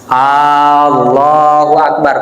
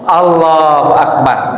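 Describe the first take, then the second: First: The first vowel of Allah is drawn out long. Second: The first vowel of Allah is kept short. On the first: It asks whether God is great. The speaker calls it wrong. "boleh nggak? Nggak boleh" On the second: It states that God is great. The speaker calls it right. "Pendek Allah, Allah, lafaz Allahnya panjang"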